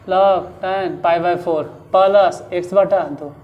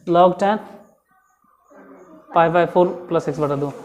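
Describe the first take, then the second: First: There is a break after 'four'. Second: It is said in one go, no break.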